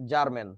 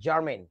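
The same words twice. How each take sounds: First: জার্মান as "jar-men", no glide; Bangla textbook pronunciation. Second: জার্মেন as "jar-meyn", gliding last vowel; English pronunciation. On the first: Teacher citing Bangladeshi books, জার্মান without the "ey". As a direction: say জার্মান with a plain final vowel. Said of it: "বাংলাদেশের বইতে যেটা লেখে". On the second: Teacher naming the hydride, জার্মেন as soft "jar-meyn". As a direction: say জার্মেন softly with "ey" before n. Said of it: "germanium থেকে জার্মেন". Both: Shown as a demonstration.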